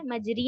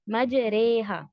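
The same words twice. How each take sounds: First: مجری with a pure "ee" ending; wrong kasra reading. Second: مجریہا with a long "ay" between alif and ya; imala reading. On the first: Teacher warning against a full kasra, wrong reading. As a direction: say مجری flatly untilted, as "maj-ree". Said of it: "مجری نہیں دینا ہے". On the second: Teacher modelling how students should read it, imala. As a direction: tilt مجریہا into "maj-ray-haa". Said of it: "الف اور یا کے درمیان کے voice". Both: Shown as a demonstration.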